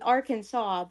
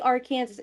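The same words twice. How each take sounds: First: The ending sounds like 'saw'. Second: The ending sounds like 'Kansas'. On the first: The speaker calls it right. "It's Arkansas" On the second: The speaker calls it wrong. "I always say it wrong because of the freaking meme"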